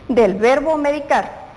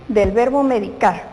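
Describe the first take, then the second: No difference in how they are said.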